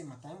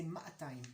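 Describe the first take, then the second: First: Said in the usual way. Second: "ma'atayim" with a long drawn-out first a; Jerusalem-style maa-tayim, first vowel held; lengthened first vowel. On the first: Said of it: "we don't say matayim". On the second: Shown as a demonstration. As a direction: stretch the opening maa in "ma'atayim". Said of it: "we like to lengthen the vowels".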